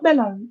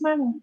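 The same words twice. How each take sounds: First: The first vowel is like in 'bell'. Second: The first vowel is like in 'bat'. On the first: The speaker calls it wrong. "it's not mellow" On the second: The speaker calls it right. "it's mellow"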